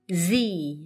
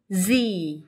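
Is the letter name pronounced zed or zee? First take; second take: zee; zee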